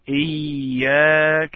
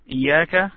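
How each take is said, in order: First: The word is held a little longer. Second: The word is said very quickly. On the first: The speaker calls it right. "You should wait a little bit when you pronounce إياك" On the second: The speaker calls it wrong. "If you say إياك very quick, so this is not the right way"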